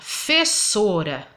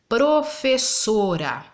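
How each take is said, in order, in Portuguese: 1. A palavra é dita sem a primeira sílaba. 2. A palavra é dita com a primeira sílaba. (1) "É fessora que a gente fala" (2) "o correto seria professora"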